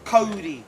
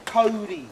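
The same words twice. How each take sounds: First: The word sounds like a fast 'Cody'. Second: The same.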